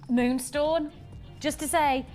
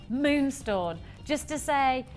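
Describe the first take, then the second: No difference in how they are said.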